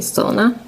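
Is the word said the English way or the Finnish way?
English. The word is said with English pronunciation. "in English language you usually say sauna"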